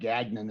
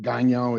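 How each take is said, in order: First: The name is said with an American pronunciation. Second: The name is said with a French pronunciation. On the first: "as we pronounce it in the U S now" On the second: "the correct French pronunciation"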